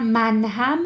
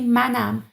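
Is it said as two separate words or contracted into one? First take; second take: separate; contracted. First: It is said as two separate full words. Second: It is said as one contracted word. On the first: This is the formal written form. "instead of" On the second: This is how people actually speak. "we would say منم"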